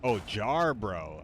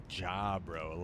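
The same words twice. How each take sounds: First: Jarbro said slowly with a clear R, JAR-bro; Oh, Jarbro drawn out, stressing JAR with the R sounded; correct pronunciation. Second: Jabro said slowly with no R, JA-bro; like, Jabro, a flat JA with the R dropped; misheard pronunciation. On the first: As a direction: Jarbro spelled out in sound, slow and careful. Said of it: "what's a Jabro?". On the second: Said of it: "I thought you said". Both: Shown as a demonstration.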